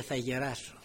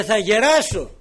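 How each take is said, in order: First: Said in the usual way. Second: Loud, high, firm "Θα γεράσω"; loud affirmation. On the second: Acted. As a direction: hammer home "Θα γεράσω" loudly. Peter's words, repeated loud.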